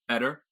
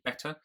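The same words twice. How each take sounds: First: The middle consonant is a quick D sound. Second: The middle consonant is a clear T sound. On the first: "in a general American accent, I'd make that more like a sort of a very quick D" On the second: "in my British accent, I would say the T"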